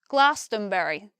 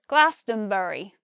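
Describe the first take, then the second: First: The word is said with four syllables. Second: The word is said with four syllables.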